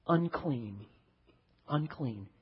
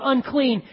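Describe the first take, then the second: First: Imitated leper's cry. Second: Raised, louder mock call of unclean; leper yelling out. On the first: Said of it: "required to start yelling out". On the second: Leper warning the crowd away, raised loud call. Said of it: "You had to yell out".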